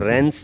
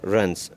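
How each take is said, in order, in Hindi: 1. स्वर पूरा, साफ़ 'e' की आवाज़ है। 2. स्वर छोटा और कमज़ोर, हल्का उच्चारण है। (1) "इसको रेंस भी नहीं पढ़ना" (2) "और रंस"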